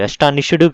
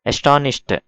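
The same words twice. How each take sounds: First: "అస్టానిష్డ్" ending in a voiced "డు"; wrong D ending. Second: "అస్టానిష్డ్" ending in an unvoiced "ట"; correct T ending. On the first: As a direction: add a full "du" syllable to the end of "అస్టానిష్డ్". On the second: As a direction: close "అస్టానిష్డ్" on a short T, no extra syllable. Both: Shown as a demonstration. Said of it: "డు కాదు, అస్టానిష్డ్ కాదు".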